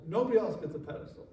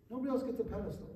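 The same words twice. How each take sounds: First: Said in the usual way. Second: "Nobody else gets a pedestal" rushed out and softer; quick softer repeat. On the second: Shown as a demonstration. Line repeated.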